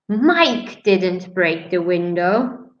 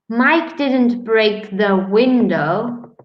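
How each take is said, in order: First: The stress falls on the word Mike. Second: The stress falls on the word window. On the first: Someone else broke the window. "that means maybe someone else did" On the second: He broke something other than the window. "He broke the door"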